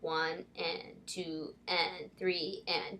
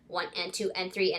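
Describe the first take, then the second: First: The counting is said slowly. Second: The counting is said quickly.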